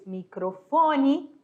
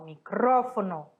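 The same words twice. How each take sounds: First: Microfone stressed on FO, mi-cro-FO-ne, slowly; Portuguese microfone. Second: Micrófono stressed on CRÓ, mi-CRÓ-fo-no; Spanish micrófono. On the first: Teacher giving the Portuguese word, microfone slow with stress on FO. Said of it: "Em português". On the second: Teacher contrasting with Spanish, micrófono stressed on CRÓ. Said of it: "em espanhol". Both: Shown as a demonstration.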